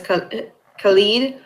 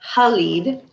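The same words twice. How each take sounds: First: The name is said with anglicized English sounds. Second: The name is said with native-language sounds.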